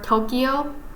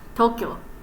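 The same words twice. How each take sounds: First: The 'kyo' is split into two syllables. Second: The 'kyo' is said as one syllable. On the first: The speaker calls it wrong. "some people in America call like call it ... Tokyo" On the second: The speaker calls it right. "but in actuality it's Tokyo"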